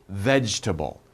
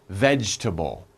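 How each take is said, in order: Both takes have the same delivery.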